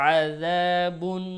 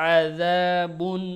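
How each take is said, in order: No difference in how they are said.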